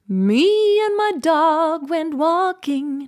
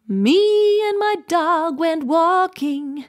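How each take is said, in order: First: The M slides vaguely up into its pitch. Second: The same.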